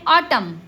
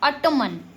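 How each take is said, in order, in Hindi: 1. अंतिम n ध्वनि मौन है। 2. अंतिम n ध्वनि का उच्चारण होता है। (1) "क्या पढ़ते हैं? ऑटम" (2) "ऑटोमन नहीं"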